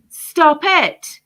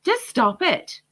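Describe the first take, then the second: First: Loud, high, commanding stop it; forceful stop. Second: Said in the usual way. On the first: Real, not acted. Vlogger telling parents to stop jabbing children, loud command. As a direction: cut them off hard, like an order.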